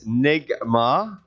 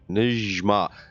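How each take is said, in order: First: The middle consonant is a hard G sound. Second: The middle consonant is a J sound. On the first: This is the English pronunciation. "It's Nigma uh, in English" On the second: This is the Arabic pronunciation. "the Arabic pronunciation is Nijma"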